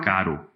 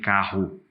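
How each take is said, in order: First: The R is a weak tapped sound. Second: The R is a strong trilled sound. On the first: The speaker calls it wrong. "ele tem um R fraco" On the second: The speaker calls it right. "não tem carro"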